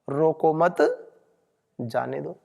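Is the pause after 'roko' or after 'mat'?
after mat. The pause comes right after the second word. Do not stop them; let them go. "अर्थ का अनर्थ हो गया"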